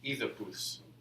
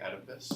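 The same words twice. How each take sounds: First: The middle consonant is a TH sound. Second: The middle consonant is a D sound. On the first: "the proper Greek pronunciation is actually Oedipus. It's not a D, it's actually a T H" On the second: "I pronounce it the American way"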